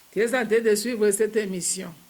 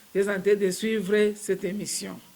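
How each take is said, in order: Both takes have the same delivery.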